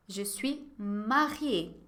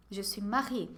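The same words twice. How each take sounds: First: "Je suis mariée" very slow, falling at the end; very slow model answer. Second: Said in the usual way. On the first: Shown as a demonstration. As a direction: say "Je suis mariée" slowly for the class. (resposta bem devagar, caindo no fim) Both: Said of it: "la réponse sera toujours négative".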